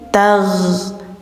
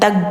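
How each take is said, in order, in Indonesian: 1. Konsonan terakhirnya mengalir dari tenggorokan. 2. Konsonan terakhirnya dipotong pendek. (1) "tagh-nya suaranya mengalir, tidak ditahan, dialirkan" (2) "Jangan tag"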